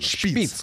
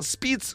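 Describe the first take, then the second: First: The name begins with a sh sound. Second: The name begins with an s sound. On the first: "Надо по-немецки говорить просто правильно. Шпиц, конечно" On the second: "Википедия по-разному трактует произношение"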